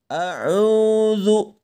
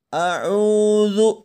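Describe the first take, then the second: Both takes have the same delivery.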